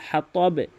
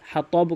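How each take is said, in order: First: The final b ends with an echoing bounce. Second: The final b stops abruptly with no bounce. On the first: The speaker calls it right. "হাতবে বলতে হবে" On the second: The speaker calls it wrong. "কখনোই বলবেন না"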